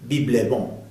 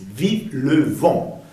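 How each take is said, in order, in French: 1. Le mot 'vive' commence par un son b. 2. Le mot 'vive' commence par un son v. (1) "no es vive" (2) "es vive le vent"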